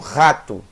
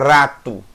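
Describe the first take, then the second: First: The r is a guttural sound in the throat. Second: The r is made with the tongue tip. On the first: "Normalmente as pessoas falam rato. Veja que sem querer elas estão usando o som do ret" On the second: "Dificilmente você fala rato"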